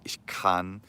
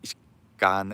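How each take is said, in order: First: The k is aspirated with a puff of air. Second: The k is unaspirated, sounding almost like g. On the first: The speaker calls it right. "German does this and too" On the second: The speaker calls it wrong. "it almost sounds like a G. It sounds wrong to the ear"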